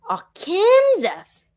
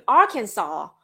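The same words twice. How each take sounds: First: Arkansas said as ar-KAN-zus, drawn out; pronounced like Kansas. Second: Arkansas said as AR-kan-saw; pronounced with "saw". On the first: Streamer reading the name, Arkansas mispronounced as ar-KAN-zus. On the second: Streamer repeating the correction, Arkansas pronounced AR-kan-saw. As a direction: stress AR and end on "saw" in Arkansas. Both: Shown as a demonstration. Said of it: "There's no saw in here".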